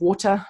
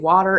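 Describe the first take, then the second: First: The word is said with a New Zealand accent. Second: The word is said with an American accent. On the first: "instead of water" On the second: "I also say water ... so that Americans understand me"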